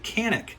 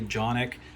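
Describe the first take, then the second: First: The name begins with a k sound. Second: The name begins with a j sound. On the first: It follows the spelling. "I'm going to pronounce it Canik because that's how it is spelled" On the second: This is how some other people say it. "some people say Jonik"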